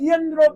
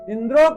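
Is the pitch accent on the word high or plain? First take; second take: high; plain. First: The word is said with a raised accent. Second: The word is said without the raised accent. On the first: One whom Indra kills should arise. The speaker calls it wrong. "वो उदात्त उन्होंने बोल दिया" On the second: The enemy of Indra should arise. The speaker calls it right. "इंद्रो की जगह"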